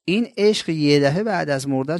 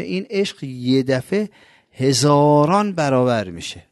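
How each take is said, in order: First: Said in the usual way. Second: Slowed down, leaning on «عشق» and «هزاران», louder on the second line; slow emphatic repeat. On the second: Real, not acted. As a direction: drag each word out to stress how much it grows. Same phrase repeated for emphasis. (آهسته و با تأکید، «هزاران» بلندتر)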